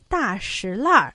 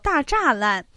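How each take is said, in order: First: It sounds like shi lanr, with a final r. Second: It sounds like zha lan, with no final r. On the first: This is the customary way locals say the street name. "老北京人习惯上将前门大栅栏读作为大石烂儿，栅读成轻声，而栏呢读去音而化" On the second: This is a reading few people use for this street. "所以很少人会将它读作大栅栏"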